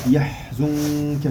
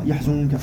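First: The h sound has audible breath flowing out. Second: The h sound has no audible breath. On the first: The speaker calls it right. "Le ha, le souffle sort" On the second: The speaker calls it wrong. "on ne dit pas"

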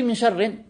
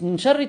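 First: The last word ends in i followed by n. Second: The last word ends in a plain short i. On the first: The speaker calls it wrong. "t'as rajouté min sharrin, tanwin, doublement de la kasra" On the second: The speaker calls it right. "juste min sharri"

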